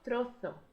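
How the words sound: It is said with a th sound, Andalusian.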